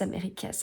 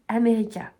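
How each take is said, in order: First: The word ends with an audible S sound. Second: The word ends with no S sound. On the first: The speaker calls it wrong. "J'arrêtais pas de vous dire Americas" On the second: The speaker calls it right. "ça se dit America. Voilà, le S ne se prononce pas"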